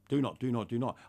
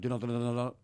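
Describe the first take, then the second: First: It is said at a normal pace. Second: It is said fast, like a machine gun.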